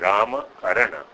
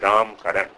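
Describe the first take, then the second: First: The final short vowels are pronounced. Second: The final short vowels are dropped. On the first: "it is Rama Karana" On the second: "But we pronounce it as Ram Karan"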